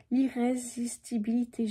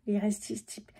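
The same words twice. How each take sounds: First: "l'irrésistibilité" sounded out syllable by syllable; careful retry. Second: "l'irrésisti-" broken off before the end; stumbled word. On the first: Tarot reader retrying "l'irrésistibilité" after a stumble, carefully articulated. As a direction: get through every syllable of "l'irrésistibilité" with care. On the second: Tarot reader tripping on "l'irrésisti-", stumbled and cut off. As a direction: trip on "l'irrésisti-" and stop short. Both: Real, not acted. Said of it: "je vais y arriver".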